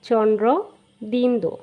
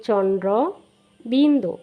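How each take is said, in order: The two takes are said the same way.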